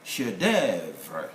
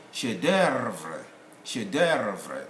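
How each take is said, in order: First: "chef d'oeuvre" as shay-DEV-ruh, no F or first R; F silent. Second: "chef d'oeuvre" American style, as shay-DURR-vruh; educated American sound. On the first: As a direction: say "chef d'oeuvre" low, dropping the F. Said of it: "This is called". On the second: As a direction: colour the vowel of "d'oeuvre" with an American R. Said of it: "That's American, educated American sound". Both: Shown as a demonstration.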